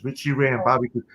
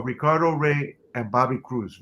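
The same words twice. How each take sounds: First: Richie Ray said the English way, quick and softer; English name. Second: Ricardo Rey said the Spanish way, rolled r; Spanish name. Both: Shown as a demonstration.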